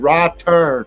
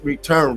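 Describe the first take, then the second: First: The first syllable is said like 'raw'. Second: The first syllable is said like 're'. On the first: The speaker calls it right. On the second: The speaker calls it wrong. "not re"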